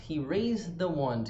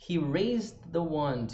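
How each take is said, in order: Both takes have the same delivery.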